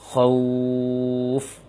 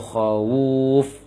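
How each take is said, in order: First: The vowel glides straight into the final f. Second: An extra vowel sound is inserted before the final f. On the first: The speaker calls it right. "Tapi langsung khauf" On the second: The speaker calls it wrong. "jangan ... khawuf menambah waw dhammah"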